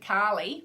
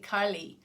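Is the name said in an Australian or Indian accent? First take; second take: Australian; Indian. First: The name is said with an Australian pronunciation. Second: The name is said with an Indian pronunciation. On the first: It is the speaker's own native way of saying it. "in my Australian accent" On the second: It follows the way the teachers pronounce it. "why do I say Carly?"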